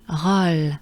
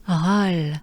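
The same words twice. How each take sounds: The two takes are said the same way.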